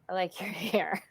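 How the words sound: It sounds mocking and insincere. Something is wrong with the hair. "there's something wrong with my hair"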